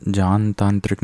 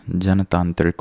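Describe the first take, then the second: First: जानतांत्रिक opened with drawn "jaan"; "jaan-taantrik" for जानतांत्रिक; wrong long aa. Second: जनतांत्रिक opened with short "jan"; "jan-taantrik" for जनतांत्रिक; correct short a. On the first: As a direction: lengthen the first vowel of जानतांत्रिक. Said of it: "नहीं होता है". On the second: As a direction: keep the first vowel of जनतांत्रिक short. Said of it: "होता है". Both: Shown as a demonstration.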